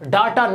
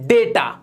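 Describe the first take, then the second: First: The first vowel sounds like 'ah'. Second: The first vowel sounds like 'ay'. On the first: The speaker calls it wrong. "डाटा नहीं होता" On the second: The speaker calls it right. "ये होता है डेटा"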